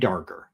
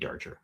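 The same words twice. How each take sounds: First: The G is hard, as in go. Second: The G is soft, as in gem. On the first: "We're going to say it's a hard G" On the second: "Could be Darger"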